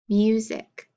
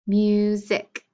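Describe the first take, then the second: First: Said in the usual way. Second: "Music" split into mu, sic; syllable by syllable. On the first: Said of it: "clap for each syllable that you hear". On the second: Shown as a demonstration. Teacher counting syllables for pupils, "Music" syllable by syllable. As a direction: sound out "Music" in two separate beats. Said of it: "Two syllables".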